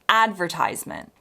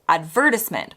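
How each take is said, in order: First: The stress follows the American pattern. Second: The stress follows the British pattern. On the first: "Americans insist on advertisement" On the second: "Brits tend to pronounce this advertisement"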